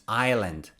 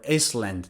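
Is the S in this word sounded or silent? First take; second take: silent; sounded. First: The S sound is left out. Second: The S sound is pronounced. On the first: The speaker calls it right. "No, it's island" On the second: The speaker calls it wrong. "Island is not Iceland"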